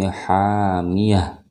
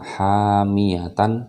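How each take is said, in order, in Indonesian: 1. Kata itu berakhir dengan bunyi h yang lembut. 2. Kata itu berakhir dengan suku kata -tan yang utuh. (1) "tapi hamiyah. Suaranya berubah menjadi H" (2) "Jadi tidak lagi dibaca hamiyatan, bukan itu"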